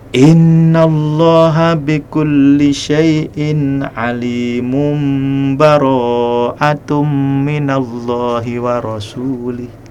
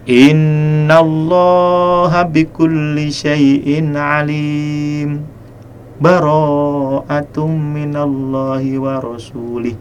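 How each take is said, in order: First: The two verses run together without any pause. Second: A brief pause comes between the two verses. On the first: The end of one surah is joined to the next. "jadi disambung nih duanya" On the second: The surahs are joined but with a brief halt. "wasol, tetapi sakat, artinya berhenti sejenak, sekedar dua harokat"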